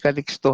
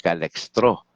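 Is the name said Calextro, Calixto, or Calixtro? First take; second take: Calixto; Calextro. First: The name is said without an r sound. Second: The name has an e sound after Cal. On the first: "Hindi Calixto ha, marami nagkakamali dyan eh" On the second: "sa mga Bisaya kaibigan natin, Calextro. E, hindi po"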